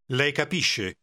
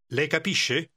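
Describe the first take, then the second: First: The voice falls at the end. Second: The voice rises at the end.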